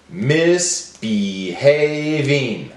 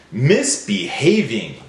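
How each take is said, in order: First: "Misbehaving" slowly in four beats; broken into syllables. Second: Said in the usual way. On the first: Shown as a demonstration. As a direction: stretch "Misbehaving" into mis, be, hav, ing. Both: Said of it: "Break it up".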